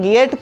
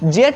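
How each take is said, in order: First: The word starts with a hard g sound. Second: The word starts with a j sound. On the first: The speaker calls it right. "इसे हम लोग गेट पढ़ेंगे" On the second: The speaker calls it wrong. "इसे हम लोग जेट नहीं पढ़ेंगे"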